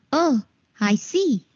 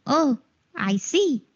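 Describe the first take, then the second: No difference in how they are said.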